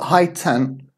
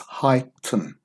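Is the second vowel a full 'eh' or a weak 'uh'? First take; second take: full eh; weak uh. First: The second syllable has a full 'eh' vowel. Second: The second syllable has a weak 'uh' vowel. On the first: The speaker calls it wrong. "It's not high-ten" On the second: The speaker calls it right. "it's high-tun"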